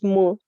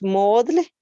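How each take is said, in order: First: It is pronounced with an English-style vowel. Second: It is read letter by letter, Spanish style. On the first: "en inglés" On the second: "si la leemos literal, es"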